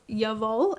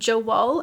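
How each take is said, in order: First: The word begins with a Y sound. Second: The word begins with a J sound. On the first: The speaker calls it right. "it's called Yavol" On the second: The speaker calls it wrong. "because I said um, Jawol, and that's what I have like heard everyone call it"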